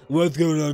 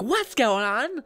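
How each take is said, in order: First: The voice is flat and monotone. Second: The voice is lively and energetic. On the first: "I was very monotone" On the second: "And now I'm like"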